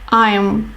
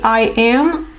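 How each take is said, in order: First: It is said as one contracted syllable. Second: It is said as two full words. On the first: "normally you will hear I'm" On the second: "you can say I am"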